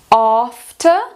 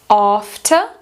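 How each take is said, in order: First: It has a long British 'a' vowel. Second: It has a long British 'a' vowel.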